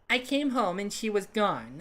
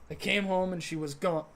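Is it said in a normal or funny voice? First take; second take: funny; normal. First: It is said in a put-on funny voice. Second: It is said in the speaker's normal voice.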